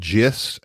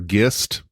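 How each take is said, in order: First: It starts with a soft J sound. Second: It starts with a hard G sound.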